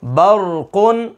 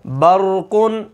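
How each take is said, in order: First: बरकुन drawn out, thick ra; heavy ra model. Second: बरकुन slow, with a thick ra; heavy ra example. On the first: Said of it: "इसको मोटा करके पढ़ना है". (बरकुन खींचकर, मोटी रा से) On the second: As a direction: stretch बरकुन, ra full and heavy. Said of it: "जैसे मिसाल है". (बरकुन धीरे, मोटी रा के साथ) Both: Shown as a demonstration.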